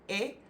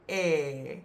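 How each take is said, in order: First: The vowel sound is short. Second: The vowel sound is stretched out long.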